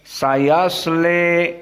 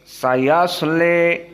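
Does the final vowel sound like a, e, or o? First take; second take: e; e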